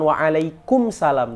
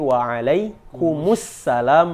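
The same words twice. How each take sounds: First: The m runs straight into salam, no vowel. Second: An u vowel and doubled s join into salam. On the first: The speaker calls it wrong. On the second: The speaker calls it right. "mim berharokat dhammah bertemu dengan alif lam syamsiyah"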